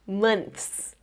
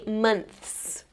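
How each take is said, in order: The two takes are said the same way.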